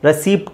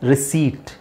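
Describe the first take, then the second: First: The p sound is clearly pronounced. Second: The p sound is left out. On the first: The speaker calls it wrong. "ರೆಸಿಪ್ಟ್ ಅಲ್ಲ" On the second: The speaker calls it right. "ಪಿ is silent"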